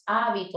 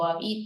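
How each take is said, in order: First: The stress is on the first syllable. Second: The stress is on the second syllable.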